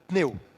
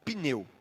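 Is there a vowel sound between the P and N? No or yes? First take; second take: no; yes. First: P and N are joined with no vowel between. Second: A short vowel sound is heard between P and N. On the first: "sem esse som vocálico, a gente vai falar pneu" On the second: "a gente fala a palavra pneu"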